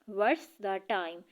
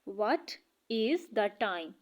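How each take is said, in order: First: What and is merge into one short syllable. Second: What and is are said as separate words. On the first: "तो हम इसे short करके pronounce करते हैं" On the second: "ये जो व्हाट्स है ये व्हाट इज़ है"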